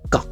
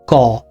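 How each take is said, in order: First: The consonant is said bare, without vowel. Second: The consonant is followed by an a vowel. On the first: "when you have halanta in it, then it becomes something like ka" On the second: "of k and a, right? So making it ka"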